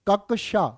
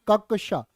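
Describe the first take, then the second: The two takes are said the same way.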